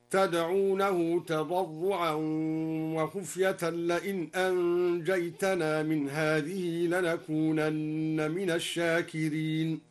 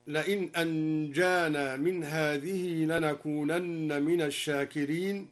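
First: "أنجيتنا" said anjaytana with ya and ta; slow chant of "أنجيتنا"; al-Duri reading. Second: "أنجانا" with long a; standard recitation. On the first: Teacher demonstrates al-Duri's variant, slow tarteel. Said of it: "تاء الخطاب هكذا". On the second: Teacher quoting the standard reading, plain chant. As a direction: say anjana plainly. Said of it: "قرأ الدوري بقلب الألف ياء بعدها تاء الخطاب هكذا". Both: Shown as a demonstration.

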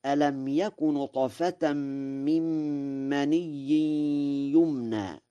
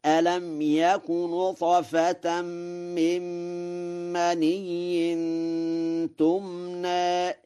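First: Said in the usual way. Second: Slow chant ending on "تمنى" with t. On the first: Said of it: "قرأ ورش". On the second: Shown as a demonstration. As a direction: stretch "تمنى", starting it with ta, tilted vowel. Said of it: "فيقرأ هكذا". ("تمنى" بتاء الخطاب مع التقليل)

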